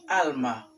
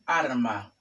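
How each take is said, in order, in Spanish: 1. La primera consonante es un sonido L. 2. La primera consonante es un sonido R.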